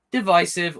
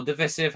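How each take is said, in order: First: "divisive" with a long i, di-VY-siv; long-i pronunciation. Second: "divisive" with a short i, di-VISS-iv; short-i pronunciation. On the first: Critic offering one way to say a film's label, "divisive" with long i. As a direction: say "divisive" with the middle syllable rhyming with "eye". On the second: Critic offering the other way to say a film's label, "divisive" with short i. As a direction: say "divisive" with the middle syllable like "hiss". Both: Shown as a demonstration. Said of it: "however you say it".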